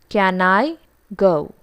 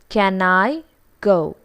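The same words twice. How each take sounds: First: The word can is said in its strong form. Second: The same.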